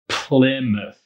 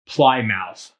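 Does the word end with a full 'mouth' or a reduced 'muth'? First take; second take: reduced muth; full mouth. First: The ending is reduced to a weak muth. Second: The ending is said like the word mouth. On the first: The speaker calls it right. "You pronounce it Plymouth" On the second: The speaker calls it wrong. "it looks like Plymouth. That's not correct"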